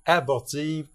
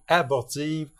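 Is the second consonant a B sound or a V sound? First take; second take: B sound; B sound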